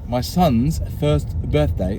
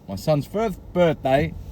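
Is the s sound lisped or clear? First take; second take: clear; lisped. First: The s sounds are clear. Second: The s sounds are lisped.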